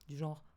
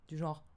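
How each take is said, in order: No difference in how they are said.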